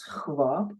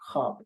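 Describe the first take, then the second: First: A w sound follows the kh sound. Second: No w sound follows the kh sound. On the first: This is the older historical form. "In Middle Persian, it was khwab. It means you had the khe and ve as a double consonant at the beginning" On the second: This is the modern form. "the vav is silent, and you don't hear it anymore"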